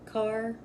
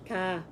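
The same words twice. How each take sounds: First: It is said with a pronounced r. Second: It is said with a dropped r, New England style.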